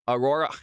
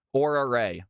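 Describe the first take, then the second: First: "Aurora" with stumbling R's; struggling with the R's. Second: "Aura Ray" with the double R dropped; simplified name. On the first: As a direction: try "Aurora" carefully over the double R. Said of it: "I cannot say your name correctly". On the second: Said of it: "It's the double R's". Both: Real, not acted.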